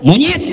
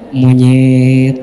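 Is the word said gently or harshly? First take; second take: harshly; gently. First: The word is said harshly and roughly. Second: The word is said softly and gently. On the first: "itu beda ya" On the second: "tapi lembut kalimatnya apa?"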